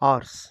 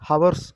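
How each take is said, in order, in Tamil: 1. இந்த வார்த்தை திறந்த உயிரெழுத்தில் தொடங்குகிறது. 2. இந்த வார்த்தை h ஒலியில் தொடங்குகிறது. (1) "ஆர்ஸ் அப்படின்னு இந்த ஆ சவுண்டு தான் வரணும்" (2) "ஹவர்ஸ் அப்படின்னு வாசிக்கக்கூடாது"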